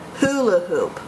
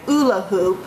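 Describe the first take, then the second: First: The first word starts with an h sound. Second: The first word starts without an h sound. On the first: The speaker calls it right. "I said hula hoop" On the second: The speaker calls it wrong. "I didn't say ula hoop"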